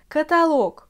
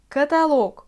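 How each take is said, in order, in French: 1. L'accent tombe sur le O de la dernière syllabe. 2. L'accent tombe sur le O de la dernière syllabe.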